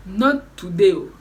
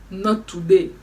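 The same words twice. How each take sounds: First: "Not today" again, louder and in a changed, hammed-up voice; louder mock refusal. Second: A firm, loud "Not today", its first word hit hard; loud flat refusal, the first take. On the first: Repeats refusal more dramatically. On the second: Retold or imitated. Refusing at the toilet door.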